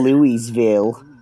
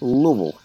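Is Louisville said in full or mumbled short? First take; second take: full; mumbled. First: The name is said fully with clear syllables. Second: The name is mumbled into about one syllable. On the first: The speaker sounds like an outsider. The speaker calls it wrong. "You used to say" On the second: The speaker sounds like a local. The speaker calls it right. "it just has to mumble out of your mouth, like one syllable"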